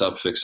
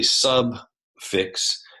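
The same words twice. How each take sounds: First: The word is said at a faster pace. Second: The word is said at a slower pace. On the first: "and then you say it faster" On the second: "if you say subfix"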